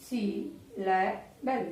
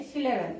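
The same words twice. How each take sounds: First: সিলেবেল very slowly in three parts, সি-লে-বেল; syllable by syllable. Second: Said in the usual way. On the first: Shown as a demonstration. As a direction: break সিলেবেল into separate syllables with gaps. (সিলেবেল ধীরে ধীরে ভেঙে, সি-লে-বেল) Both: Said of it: "যতটুকু আমরা উচ্চারণ করতে পারবো সেটাই সিলেবেল".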